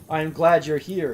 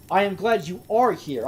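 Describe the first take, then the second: First: Said in the usual way. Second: "are" said in full and stressed; uncontracted "you are". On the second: Real, not acted. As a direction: read "you are" as two separate words, landing on "are". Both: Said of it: "I immediately shortened that because it sounds better".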